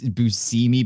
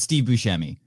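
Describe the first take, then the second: First: BUSCEMI as boo-SEE-mee; hesitant boo-SEE-mee for BUSCEMI; alternative pronunciation. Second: BUSCEMI as boo-SHEM-ee; American pronunciation. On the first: Co-host recalling actor's name, BUSCEMI as boo-SEE-mee. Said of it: "but it's Steve Buscemi". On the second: Co-host giving his correct version, BUSCEMI as boo-SHEM-ee. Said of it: "that's the correct way if you're American". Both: Shown as a demonstration.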